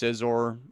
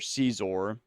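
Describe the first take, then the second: First: It sounds like sizer, rhyming with visor. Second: It sounds like the name Caesar. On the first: It is the accepted way of saying it. The speaker calls it right. "But I guess it's Scizor" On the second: It is a childhood way of saying it. The speaker calls it wrong. "as I used to say when I was younger"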